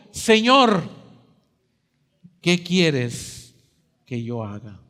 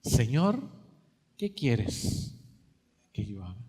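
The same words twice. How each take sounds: First: A hint of fear, asked out plainly; trembling plea. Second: Much softer, lower, fading almost to nothing; fearful surrender. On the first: Saul on the ground asks the Lord, mild trembling. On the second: Acted. Saul surrenders to the Lord, barely audible and humbled. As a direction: give it up in a small, defeated voice. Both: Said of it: "él temblando y temeroso le dijo".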